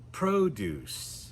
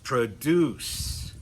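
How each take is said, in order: First: The stress is on the first syllable. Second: The stress is on the last syllable. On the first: It is used as a noun or adjective. "the stress is on the first syllable" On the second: It is used as a verb. "we're going to put the stress on the final syllable"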